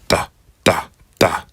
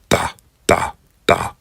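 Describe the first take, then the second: The two takes are said the same way.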